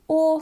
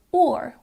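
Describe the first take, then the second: First: "or" as "aw", no r; speaker's own accent. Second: "or" with a sounded r; rhotic R. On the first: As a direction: leave the r silent in "or". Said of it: "in my accent that is the or sound". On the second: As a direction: finish "or" on a clear r. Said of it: "in other accents it might sound more like". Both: Shown as a demonstration.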